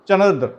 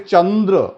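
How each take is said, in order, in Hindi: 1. पहला अक्षर छोटा और हल्का है। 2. पहला अक्षर लंबा और ज़ोर वाला है। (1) "ऐसे नहीं बोल सकते" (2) "चा पर अधिक बल और समय देना पड़ रहा है"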